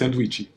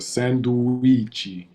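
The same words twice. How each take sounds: First: The word is said quickly in rapid speech. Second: The word is said at a careful, unhurried pace. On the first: "when you say it really fast" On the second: "this I is the, where the stress is"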